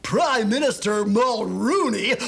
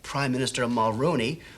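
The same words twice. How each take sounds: First: It is read in an over-the-top, exaggerated comic manner. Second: It is read in a straight, serious announcer manner. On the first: The audience clearly knows it is a comedy. The speaker calls it right. "sometimes you have to go that far" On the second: The audience may not realize it is a comedy. The speaker calls it wrong. "like you're a real announcer"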